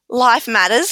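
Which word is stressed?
matters. The stress falls on the word matters. Life is important. "as in life is, is important"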